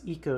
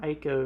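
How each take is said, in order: First: The first vowel sounds like 'ee'. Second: The first vowel sounds like 'eye'. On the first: The speaker calls it right. "it's Eco" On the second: The speaker calls it wrong. "If you say Ico, you're wrong"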